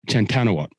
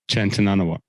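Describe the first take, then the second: First: The surname is said with four syllables. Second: The surname is said with five syllables. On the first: The speaker calls it wrong. "You reckon you missed an N?" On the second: The speaker calls it right. "That's the one"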